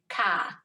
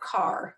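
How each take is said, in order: First: The r is dropped, Worcester style. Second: The r is pronounced, Western style.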